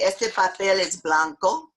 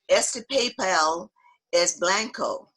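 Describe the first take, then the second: First: It is said with a natural Spanish accent. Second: It is said with a heavy English accent. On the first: The speaker calls it right. "if you want to say" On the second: The speaker calls it wrong. "which was absolutely the wrong accent"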